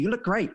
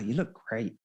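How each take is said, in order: First: The phrase is said quickly and hurriedly. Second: The phrase is said slowly and unhurriedly. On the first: It creates no chemistry or tension. The speaker calls it wrong. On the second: It creates chemistry and tension. The speaker calls it right.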